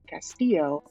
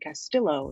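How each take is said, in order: First: The name is said with a Spanish pronunciation. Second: The name is said with an Italian-sounding pronunciation. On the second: The speaker hides her background and blends in.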